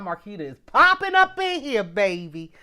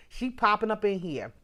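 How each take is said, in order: First: Big, raised-voice cheer for a friend; excited hype. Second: Said in the usual way. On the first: Real, not acted. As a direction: hype her up at full voice. Hyping a regular viewer.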